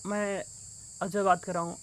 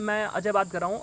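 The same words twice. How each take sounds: First: The speaker sounds hesitant and unsure. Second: The speaker sounds confident and assured.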